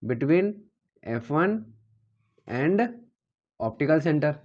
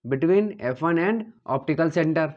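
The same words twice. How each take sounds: First: Each word set apart by pauses; pausing after every word so students can copy it; word-by-word dictation. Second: Slow dictation. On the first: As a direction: spell it out piece by piece for the class to write. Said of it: "six का मतलब क्या है?". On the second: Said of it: "ये क्या है?". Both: Shown as a demonstration.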